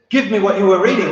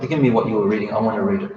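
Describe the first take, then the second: First: Angry demand. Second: Gentler, lower, almost pleading; softened request. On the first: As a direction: bark the order at his sister. Angry brother demands the page. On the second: He said to himself, "What has become of me?. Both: Retold or imitated.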